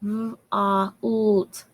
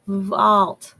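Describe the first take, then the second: First: Segmented sounding. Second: Vault said as one quick word; blended word. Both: Shown as a demonstration. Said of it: "say it a little faster".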